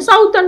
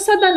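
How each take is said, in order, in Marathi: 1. पहिला स्वर 'ow' आवाज आहे. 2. पहिला स्वर लहान 'uh' आवाज आहे. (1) "पण आपण साऊदर्न म्हणत असतो" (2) "ऍक्च्युली प्रॉपर उच्चार त्याचा सदर्न आहे"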